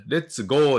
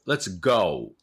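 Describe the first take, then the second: First: "let's go" with a long flat "oo" in "go"; wrong Japanese-style vowel. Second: "let's go" with "go" gliding from O into U; "let's GOU", rounded off at the end; correct OU diphthong. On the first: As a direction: say "let's go" as katakana レッツゴー. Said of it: "let's goじゃなくて". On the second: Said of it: "おうです。". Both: Shown as a demonstration.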